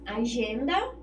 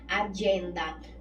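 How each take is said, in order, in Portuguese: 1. Ela é pronunciada com sons portugueses. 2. Ela é pronunciada com sons ingleses. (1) "Agenda em português" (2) "E em inglês é agenda"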